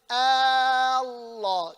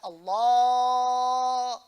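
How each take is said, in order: First: The opening vowel at the start is held long. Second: The l sound in the middle is held long. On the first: The speaker calls it wrong. "but you cannot say Allah. You cannot make the hamza long" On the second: The speaker calls it right. "You can stretch the lam. You can say Allah"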